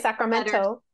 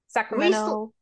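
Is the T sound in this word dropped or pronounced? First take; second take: pronounced; dropped. First: The T sound is clearly pronounced in the word. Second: The T sound is dropped from the word. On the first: This is not how locals say it. "We don't say Sacramento" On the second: This is how locals say it. "that's like us"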